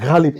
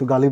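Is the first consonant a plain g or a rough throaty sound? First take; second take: rough throaty; plain g. First: The first consonant is a rough, throaty sound. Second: The first consonant is a plain, soft g. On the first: The speaker calls it right. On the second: The speaker calls it wrong. "কিন্তু গালিব নয়"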